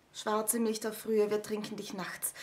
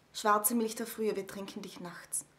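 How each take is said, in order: The two takes are said the same way.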